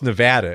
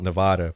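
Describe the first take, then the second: First: The middle vowel is a short A. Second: The middle vowel is a long A. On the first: This is how local people say it. The speaker calls it right. "it's Nevada" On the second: This is the Midwestern habit that upsets locals. The speaker calls it wrong. "will get really upset if you call it Nevada"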